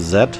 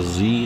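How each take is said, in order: First: The letter is pronounced zed, British style. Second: The letter is pronounced zee, American style.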